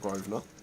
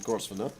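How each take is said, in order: First: The S in the name is silent. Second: The S in the name is pronounced. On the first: The speaker calls it right. "now I'm Grosvenor. The S is silent" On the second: The speaker calls it wrong. "I used to be Grosvenor"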